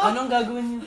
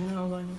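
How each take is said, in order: First: Said in the usual way. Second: Soft tearful whimper; crying. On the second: Shown as a demonstration. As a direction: say it quietly, close to tears.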